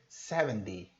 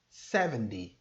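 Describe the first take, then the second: Both takes have the same delivery.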